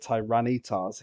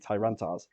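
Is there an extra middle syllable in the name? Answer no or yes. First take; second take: yes; no. First: The name has an extra middle syllable. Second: The name has no extra middle syllable. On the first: The speaker calls it wrong. "He hates pronouncing it the Tyrannitars" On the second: The speaker calls it right. "He likes it to be Tyrantars"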